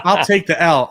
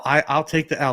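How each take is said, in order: First: Laughing it off, a touch louder. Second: Said in the usual way. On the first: Real, not acted. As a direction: own the mistake through a laugh. Admits fault, laughing at himself.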